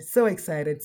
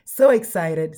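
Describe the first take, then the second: First: Said in the usual way. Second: Excited. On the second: Real, not acted. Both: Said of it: "smiling from ear to ear".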